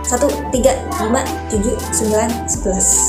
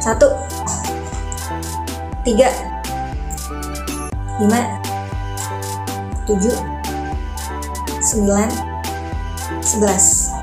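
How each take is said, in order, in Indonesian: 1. Angkanya dihitung dengan ritme cepat. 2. Angkanya dihitung dengan ritme pelan. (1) "sekarang yang lebih cepat ya" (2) "ronde pertama ritmenya pelan"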